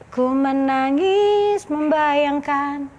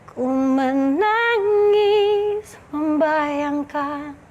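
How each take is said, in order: First: It is said flatly, without emotion. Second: It is said with sad, emotional feeling.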